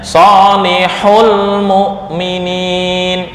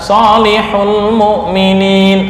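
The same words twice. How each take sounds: First: A sharp, jerked emphasis falls on 'solihul'. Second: 'Solihul' is said plainly, with no extra emphasis. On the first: The word is plural. The speaker calls it right. "Ini perlu dinaber. Bacanya" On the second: The word seems to be singular. The speaker calls it wrong. "Tapi kalau dibaca biasa"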